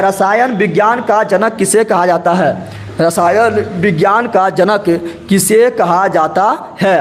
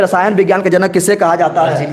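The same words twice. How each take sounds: First: Slow, careful quiz question read to the class; slow dictation. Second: Said in the usual way. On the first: Shown as a demonstration. Teacher slowly reads the quiz question to students. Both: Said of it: "आप लोग भी जवाब दीजिए".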